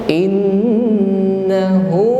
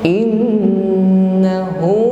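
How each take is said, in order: Both takes have the same delivery.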